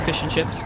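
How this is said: The vowels sound like the ones in 'fish and chips'. "rather than fish and chips"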